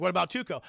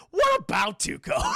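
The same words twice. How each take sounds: First: Said in the usual way. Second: Very high, loud mock shout; hammed-up outcry. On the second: Retelling Blondie's question about his partner, high mock shout. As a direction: squawk the question, half laughing.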